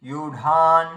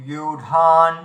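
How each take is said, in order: No difference in how they are said.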